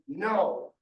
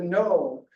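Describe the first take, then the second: First: It is said less loudly. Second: It is said more loudly.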